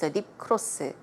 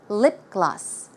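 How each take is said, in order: First: Gloss starts with a K sound. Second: Gloss starts with a G sound. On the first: The speaker calls it wrong. "I still hear people saying lip gloss" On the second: The speaker calls it right. "the pronunciation should be g"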